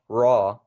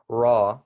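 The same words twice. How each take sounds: Both takes have the same delivery.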